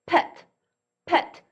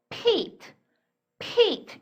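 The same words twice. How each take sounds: First: Pet with a short "eh" vowel. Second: Peat with a high-pitched "ee" vowel; long E. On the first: Teacher reading pet for students before magic E, short E. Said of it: "이렇게 발음하던 단어가". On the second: Teacher showing how magic E changes pet, long "ee" in peat. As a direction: say peat with E as its letter name. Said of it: "이렇게 발음이 됐습니다". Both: Shown as a demonstration.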